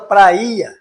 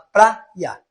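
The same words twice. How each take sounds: First: The vowels are split into separate syllables. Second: The vowels are run together smoothly. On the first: The speaker calls it wrong. "Você não fala praia" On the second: The speaker calls it right. "você fala praia"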